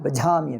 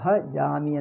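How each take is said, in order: First: English-style accent, stress on the second syllable. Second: Indian accent, without the second-syllable stress. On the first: This is how foreigners say it. The speaker calls it wrong. "ಎರಡನೇದು ಒತ್ತಿ ಹೇಳುವುದು" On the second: This is the proper native form. The speaker calls it right. "ಭಜಾಮಿ ಅಂದರೆ"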